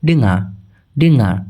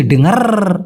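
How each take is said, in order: First: ডেঙ্গা with the final r dropped; ডেঙ্গা, final r left silent as locals do; natural pronunciation. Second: ডেঙ্গার with the final r sounded; ডেঙ্গার with a clear final r; overly careful pronunciation. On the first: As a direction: say ডেঙ্গা simply, no r at the end. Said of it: "ওরা simply বলে". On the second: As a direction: stress the r at the end of ডেঙ্গার. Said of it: "ওইভাবে বলে না ভাই". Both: Shown as a demonstration.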